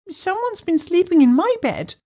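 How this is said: It is said in a high, squeaky voice.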